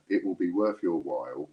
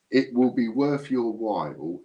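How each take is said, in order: First: Said in the usual way. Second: Slow, louder, drawn-out hint; teasing emphasis. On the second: Shown as a demonstration. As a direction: lean on it slowly, like a secret. Teasing a hidden reward.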